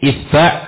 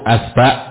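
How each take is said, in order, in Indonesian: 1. Vokal pertama i, vokal kedua a. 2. Kedua vokalnya a.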